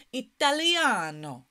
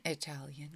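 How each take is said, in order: First: "Italiano" with a loud, long stressed "a"; Italian pronunciation. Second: Said in the usual way. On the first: Shown as a demonstration. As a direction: say "Italiano" the Italian way, stretching "lia". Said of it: "if we say it in Italian". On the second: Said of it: "the way we say it in English".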